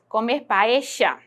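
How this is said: It has a Rioplatense accent with a 'sh' sound.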